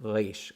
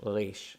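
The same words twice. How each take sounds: Both takes have the same delivery.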